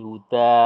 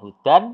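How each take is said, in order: First: The word ends with a long a vowel. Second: The word ends with an n sound. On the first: The speaker calls it right. "tapi huda" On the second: The speaker calls it wrong. "bukan hudan"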